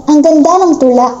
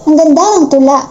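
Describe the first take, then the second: Both takes have the same delivery.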